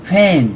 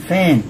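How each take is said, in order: No difference in how they are said.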